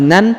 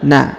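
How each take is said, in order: First: The syllable ends with an n sound. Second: The syllable ends on a long open vowel. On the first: The speaker calls it wrong. "bukan lagi nan" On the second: The speaker calls it right. "tapi na ya"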